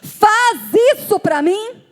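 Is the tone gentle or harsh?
harsh. The request sounds harsh and bossy. The request is an order that hurts the listener. The speaker calls it wrong. "não foi só faz isso para mim"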